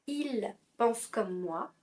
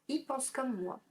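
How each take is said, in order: First: The pronoun il keeps its L sound. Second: The pronoun is said without its L sound.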